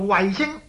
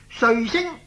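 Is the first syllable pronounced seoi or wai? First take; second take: wai; seoi. First: The first syllable sounds like wai. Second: The first syllable sounds like seoi. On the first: The speaker calls it wrong. "有人會讀成個衛字" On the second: The speaker calls it right. "其實這個字正確的讀音呢應該是睡"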